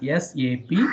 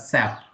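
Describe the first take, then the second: First: It is said as three separate letters. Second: It is said as one single word. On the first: It names systems, applications and products. The speaker calls it right. "you have to call it as S A P only" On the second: It sounds like a word that means pig. The speaker calls it wrong. "we should not pronounce it this S A P as S A P"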